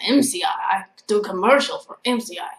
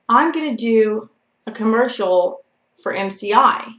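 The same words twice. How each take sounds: First: Badly imitated Vietnamese accent, oddly Russian-sounding; heavy Vietnamese accent. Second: Said in the usual way. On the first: Storyteller quoting her stalker from class, heavy mock Vietnamese accent. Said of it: "He had a really heavy accent". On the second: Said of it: "he didn't say it like that".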